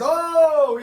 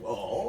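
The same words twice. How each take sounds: First: It sounds like an excited exclamation. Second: It sounds like a doubtful question.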